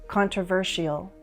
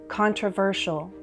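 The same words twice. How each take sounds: The two takes are said the same way.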